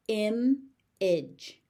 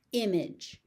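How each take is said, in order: First: "Image" as im, pause, idge; syllable by syllable. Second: Said in the usual way. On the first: Shown as a demonstration. Teacher sounding out "Image" for learners, syllable by syllable. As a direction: split "Image" into two beats.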